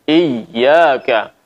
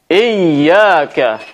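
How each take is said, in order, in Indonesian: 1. Huruf y yang ganda diucapkan dengan tekanan sedang. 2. Huruf y yang ganda diucapkan dengan tekanan terlalu keras. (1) "Seharusnya seperti itu ya" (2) "mengucapkan secara berlebihan seperti ini"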